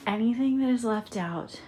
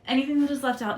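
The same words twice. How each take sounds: First: Breathless, panting between words; short of breath after packing. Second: Louder restart, still catching breath; pushing through breathlessness. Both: Real, not acted. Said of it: "sorry, I'm out of breath, y'all".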